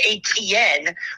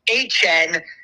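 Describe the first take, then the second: First: The name has the common, non-Cajun pronunciation. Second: The name has a Cajun-style pronunciation. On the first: The speaker calls it wrong. "I've been calling him Travis Etienne" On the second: The speaker calls it right. "you pronounce it more of a Cajun way"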